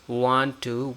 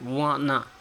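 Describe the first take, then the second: First: The words are said in full with a T. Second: The words blend into one word without T. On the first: The speaker calls it wrong. "we don't use want to" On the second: The speaker calls it right. "we also skip the T, so it becomes like wanna"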